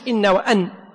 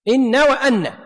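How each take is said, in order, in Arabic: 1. صوت النون الأخيرة قصير وخفيف. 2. صوت النون الأخيرة مشدّد ومُطال. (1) "مش إن وأن" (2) "لأن أن المخففة لا تعمل"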